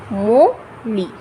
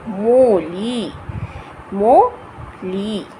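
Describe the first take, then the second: First: Said in the usual way. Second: मोली stretched very slowly, मो and ली drawn apart; slow syllable demo. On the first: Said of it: "तो पहले हमने क्या पढ़ा था". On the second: Shown as a demonstration. Teacher sounding out मोली slowly for learners. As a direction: draw out मोली slowly, both syllables clear. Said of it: "इसको इस तरीके से बोलेंगे".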